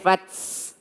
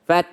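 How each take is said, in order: First: The final T sound has an added S. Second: The final T sound has no added S. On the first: The speaker calls it wrong. "jangan sampai ditambah dengan s" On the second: The speaker calls it right. "nggak pakai s"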